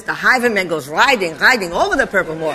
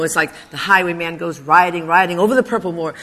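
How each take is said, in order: First: "The highwayman" recited in imitation of a Yiddish teacher, w turned to v; Yiddish accent. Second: Said in the usual way. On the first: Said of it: "this poem like this".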